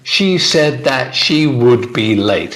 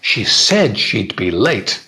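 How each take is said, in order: First: Every word is said in full, unreduced. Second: The words are shortened and run together. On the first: The speaker calls it wrong. "It's too long and boring" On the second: The speaker calls it right. "Much shorter, much easier to say"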